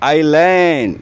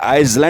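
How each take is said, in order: First: The S sound is left out of the word. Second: The S sound is pronounced in the word. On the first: The speaker calls it right. "इसमें एस silent है" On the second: The speaker calls it wrong. "ये आइसलैंड नहीं होता"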